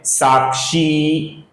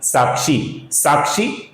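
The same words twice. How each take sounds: First: साक्षी with a slow, held "ee"; long final vowel. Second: साक्षी with a short, cut-off "i"; short final vowel. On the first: Teacher showing the correct दीर्घ sound, long held ending. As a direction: stretch the end of साक्षी, "saakshee". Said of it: "इसका उच्चारण दीर्घ है". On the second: Teacher showing the wrong way, short ending on साक्षी. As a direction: end साक्षी quickly on "shi", no length. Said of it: "ये गलत है". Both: Shown as a demonstration.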